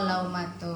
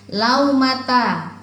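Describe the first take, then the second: First: The word ends with a 'u' vowel. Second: The word ends with an 'a' vowel. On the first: The speaker calls it right. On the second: The speaker calls it wrong.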